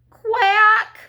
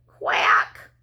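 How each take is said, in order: First: Loud, high panicked quack; frightened duckling cry. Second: Whispered, forlorn quack; small sad voice. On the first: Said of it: "cried number five". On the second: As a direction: quack weakly like a lost duckling. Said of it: "he heard a small, sad voice". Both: A narrator's reading.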